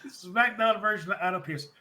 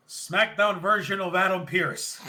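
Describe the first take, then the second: First: Said in the usual way. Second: Slow, laughing through the name; mock the line while cracking up; laughing mock callout. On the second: Recapping McAfee's jab to the stage, laughing. Mocking McAfee calling out Pearce.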